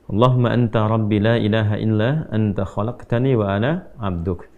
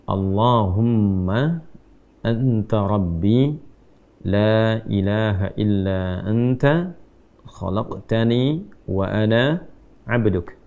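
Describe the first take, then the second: First: The line is recited at a faster pace. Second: The line is recited at a slower pace.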